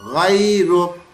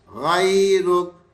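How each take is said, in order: The two takes are said the same way.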